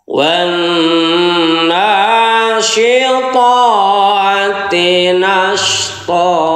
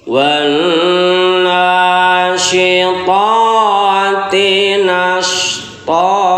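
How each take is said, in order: Both takes have the same delivery.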